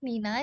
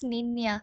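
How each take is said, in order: First: The middle consonant is a plain n. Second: The middle consonant is an ny sound. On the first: The speaker calls it wrong. "Not নিনা" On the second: The speaker calls it right. "It's নিন্নিয়া"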